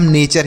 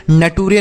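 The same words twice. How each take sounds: First: नेचर in two syllables, ending in a ch sound; correct "nature" reading. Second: नटूरे with a hard t and every vowel sounded; letter-by-letter misreading. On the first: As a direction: say नेचर as NAY-cher, "ture" becoming "cher". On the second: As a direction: misread nature as नटूरे, na-TOO-ray. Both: Shown as a demonstration. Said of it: "नटूरे नहीं पढ़ते हैं".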